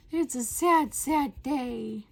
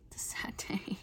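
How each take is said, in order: First: Higher, louder mock wail; hammed-up wail. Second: Hushed whisper mourning the bugs; whispered lament. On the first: Vlogger wailing in mock despair about bugs. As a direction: ham up the despair, sad doubled. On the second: Pretend. Vlogger mock-mourning her bug troubles in a whisper. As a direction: sigh it out in a whisper.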